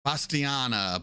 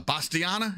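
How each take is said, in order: First: Said in the usual way. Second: "Bastiana" with a questioning rise, pitched higher; unsure pronunciation. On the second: Real, not acted. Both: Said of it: "Am I saying that right?".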